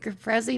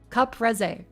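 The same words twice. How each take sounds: First: It is said with an Australian accent. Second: It is said with an Italian accent. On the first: "I'm Australian" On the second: "I'm doing the little thing"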